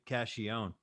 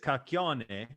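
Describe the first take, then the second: First: The name is said with Americanized English sounds. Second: The name is said with original Italian sounds. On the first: The name was changed to fit in with Americans. The speaker calls it wrong. "We all say cashion" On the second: This is how the family name was said originally. The speaker calls it right. "the real way is cacchione"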